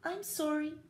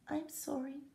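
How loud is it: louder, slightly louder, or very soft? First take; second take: slightly louder; very soft. First: It is said just slightly louder. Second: It is said very softly.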